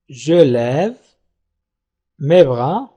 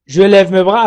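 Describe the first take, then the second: First: "Je lève", long pause, "mes bras", pitched lower; word by word. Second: Said in the usual way. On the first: Shown as a demonstration. Teacher modelling the sentence before negating it, word by word. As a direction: dictate "Je lève mes bras" in two separate chunks.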